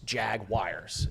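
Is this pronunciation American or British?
American. Some vowels in the word are reduced. "we in America call it Jaguars"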